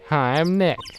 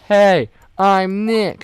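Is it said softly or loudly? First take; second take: softly; loudly. First: It is said fairly softly. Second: It is said more loudly.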